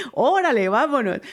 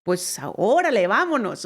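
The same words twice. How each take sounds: First: Louder, laughing órale, vámonos; órale and vámonos said with a laughing, louder, playful lilt; excited playful repeat. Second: Said in the usual way. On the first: Shown as a demonstration. Repeating the invitation to the admirer, playful and excited. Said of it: "repeated after laugh". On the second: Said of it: "her reply".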